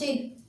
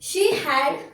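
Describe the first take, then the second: First: The words are contracted into one syllable. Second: Both words are said fully and separately.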